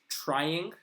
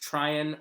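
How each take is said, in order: First: The final G sound is clearly pronounced. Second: The final G sound is dropped. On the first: "Trying is just trying" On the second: "we get rid of the G"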